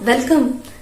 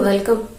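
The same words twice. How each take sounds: First: It is said warmly and enthusiastically. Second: It is said flatly, without warmth. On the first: The guest's arrival was truly awaited. The speaker calls it right. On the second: The guest is greeted without real feeling. The speaker calls it wrong.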